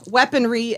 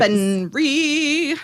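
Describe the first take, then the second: First: Said in the usual way. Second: Slow, stretched "weaponry"; drawn-out word. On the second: Shown as a demonstration. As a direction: draw out "weaponry" while thinking.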